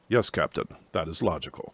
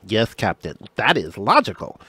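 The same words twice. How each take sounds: First: The voice is low and deep. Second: The voice is lighter and higher. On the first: The speaker calls it right. "had that very nice deep voice" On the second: The speaker calls it wrong. "that doesn't sound"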